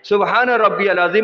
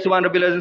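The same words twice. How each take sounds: First: The phrase is said slowly and calmly. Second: The phrase is said quickly and hurriedly. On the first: The speaker calls it right. "इत्मीनान से" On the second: The speaker calls it wrong. "जल्दी जल्दी नहीं जो हम करते हैं"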